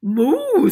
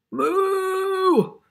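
First: Short, loud, high moo; cow moo. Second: Long, high, loud moo; really big moo. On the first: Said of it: "What does the cow say?". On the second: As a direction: moo big like an unhappy cow. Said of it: "A really big moo because this cow is not happy". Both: Acted.

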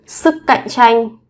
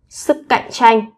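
Both takes have the same delivery.

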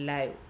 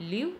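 First: ലൈവ് with an "eye" glide; ലൈവ് as "lyve", long i; contrasted pronunciation. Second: ലിവ് with a short i; ലിവ് as "liv", short vowel; contrasted pronunciation. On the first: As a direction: say ലൈവ് to rhyme with "five". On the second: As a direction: say ലിവ് to rhyme with "give". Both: Shown as a demonstration. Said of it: "വ്യത്യസ്ത രീതിയിൽ pronounce ചെയ്യുന്നതും".

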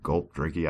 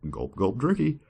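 First: Said in the usual way. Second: Silly drinking cue. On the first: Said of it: "I was trying to switch up". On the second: Shown as a demonstration. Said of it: "drinky was a little bit corny".

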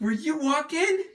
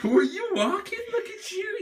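First: High, slow cooing question. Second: High, giggling coo. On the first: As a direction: coo the question gently. Mother repeats her question to the baby. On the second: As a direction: laugh while cooing. The same question, now laughing. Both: Real, not acted.

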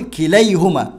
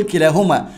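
First: كليهما slowly, with "ay" after the l; correct case ending. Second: كلاهما with a long "aa" after the l; wrong case ending. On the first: Teacher giving students the right form, كليهما slowly with an ay sound. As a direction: say كليهما as ki-LAY-huma, drawing out the yaa glide. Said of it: "هقول كليهما". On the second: Teacher rejecting a form for the student, كلاهما with a long aa. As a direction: say كلاهما as ki-LAA-huma, with the alif sound. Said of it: "يبقى ما ينفعش أقول كلاهما". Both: Shown as a demonstration.

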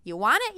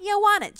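First: Said in the usual way. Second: Want it, much higher and louder; insisting, higher and louder; emphatic repeat. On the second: Real, not acted. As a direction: hit it harder the second time. Urging herself not to doubt.

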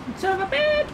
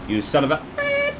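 First: Much higher, squeaky cartoon insult. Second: Said in the usual way.

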